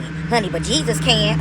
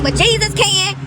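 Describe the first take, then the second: First: Said in the usual way. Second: High, loud ecstatic cry; excited cry. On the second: Real, not acted. Repeating to her viewers that Jesus can, a high loud excited cry. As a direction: shout it up high with joy.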